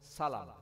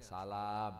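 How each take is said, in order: First: The second vowel is kept short. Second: The second vowel is drawn out long. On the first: It means paying in advance for an order. "tidak ada alifnya ya" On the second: It is the greeting of peace. "Kalau yang antum assalamualaikum itu ada alifnya"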